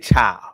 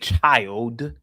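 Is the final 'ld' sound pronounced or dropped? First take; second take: dropped; pronounced. First: The word ends on 'l', dropping the 'd'. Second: The word ends with a clear 'ld' sound. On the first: This is the Southern idiom form. "They say child. / C H I L E" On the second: This is the standard form, not the Southern one. "They don't say child"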